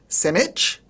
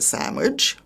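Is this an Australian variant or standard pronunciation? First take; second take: Australian variant; standard. First: It uses a nonstandard Australian pronunciation. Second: It uses the standard pronunciation. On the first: The speaker calls it wrong. "avoid strine" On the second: The speaker calls it right.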